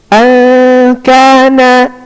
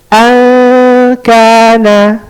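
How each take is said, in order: Both takes have the same delivery.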